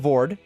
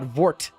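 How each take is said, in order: First: The word ends in a plain d sound. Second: The word ends in a plain t sound. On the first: "it's not Vord" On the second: "It's not Vort"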